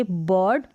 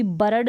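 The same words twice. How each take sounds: First: "बर्ड" as one syllable, "buhd"; barely touch the r in "बर्ड"; half-r pronunciation. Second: "बर्ड" as "ba-rad", two syllables; full-r mispronunciation. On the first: Teacher modelling the correct reading, "बर्ड" with half r. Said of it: "पढ़ेंगे बर्ड". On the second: Teacher warning learners off it, "बर्ड" with full r. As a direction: fully sound the r in "बर्ड". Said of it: "इसको भी बर्ड नहीं पढ़ेंगे". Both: Shown as a demonstration.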